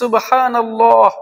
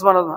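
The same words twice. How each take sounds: First: The phrase is said slowly and calmly. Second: The phrase is said quickly and hurriedly. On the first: The speaker calls it right. "একটু সময় নিয়ে প্রথমে যখন বলেন" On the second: The speaker calls it wrong. "তারা সঠিকভাবে উচ্চারণগুলো করেও না"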